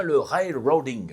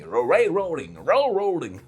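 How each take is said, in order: First: Said in the usual way. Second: Railroading said the English way, with an English accent, a rolled-back English r. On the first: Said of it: "sur l'accent anglais". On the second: Shown as a demonstration. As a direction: say railroading with a crisp English accent, as a native would. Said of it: "ça va encore mal parler dans les commentaires sur l'accent anglais". (railroading prononcé avec un accent anglais appuyé)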